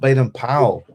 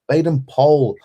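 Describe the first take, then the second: First: Powell is said to rhyme with towel. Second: Powell is said to rhyme with pole. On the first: The speaker calls it wrong. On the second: The speaker calls it right. "the proper pronunciation"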